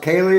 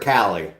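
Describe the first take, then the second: First: The first vowel is a long A sound. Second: The first vowel is a short A sound. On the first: The speaker calls it wrong. "Is it a long A" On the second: The speaker calls it right. "or the short A?"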